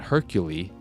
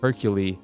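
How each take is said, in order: First: The name is said with every sound clearly enunciated. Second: The name is mumbled with little enunciation. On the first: The speaker calls it wrong. "it's not Hercule" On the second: The speaker calls it right. "with as little enunciation as it"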